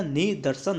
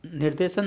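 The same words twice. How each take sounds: First: निदर्शन with "ni-dar"; corrected form. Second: निर्देशन with "nir-de"; incorrect form. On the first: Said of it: "निदर्शन होता है". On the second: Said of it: "निर्देशन नहीं होता". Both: Shown as a demonstration.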